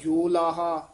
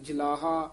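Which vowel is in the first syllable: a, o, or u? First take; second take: o; a. First: The first syllable has a full o vowel. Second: The first syllable has a short a vowel. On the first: "ना कहना जोलाहा" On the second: "ना कहना जलाहा"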